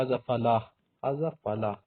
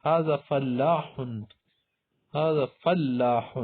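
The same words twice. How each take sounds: First: فلاح as short "falah", single l; colloquial Arabic pronunciation. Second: فلاح slowly with held double l; standard Arabic pronunciation. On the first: Teacher quoting everyday Arabic speakers, فلاح cut down to "falah". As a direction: clip the ending of فلاح. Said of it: "بس اس طرح بولتے". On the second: Teacher presenting the word for farmer, فلاح slow and complete. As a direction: stretch فلاح out, "fal-laa-h". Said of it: "عام عربی میں بول سکتے ہیں". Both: Shown as a demonstration.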